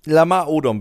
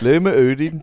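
First: The name is said in its ordinary pronunciation. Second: The name is said with a put-on Danish accent. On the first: "du hast den Namen nicht falsch ausgesprochen" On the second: "Du musst den falsch aussprechen / er ist aus Dänemark"

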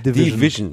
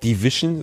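First: The middle has an English 'vizh' sound. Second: The middle sounds like German 'wischen'. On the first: The speaker calls it right. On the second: The speaker calls it wrong.

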